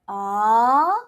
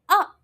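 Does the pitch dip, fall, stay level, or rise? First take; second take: rise; fall. First: The pitch rises from middle to high. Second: The pitch falls sharply from high to low. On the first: "as if you're asking people question" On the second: "So it drops"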